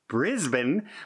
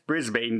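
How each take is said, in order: First: The name is not pronounced the way it's spelled. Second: The name is pronounced the way it's spelled. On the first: The speaker calls it right. "I said it correct" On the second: The speaker calls it wrong. "it sure looks like it should be said Brisbane"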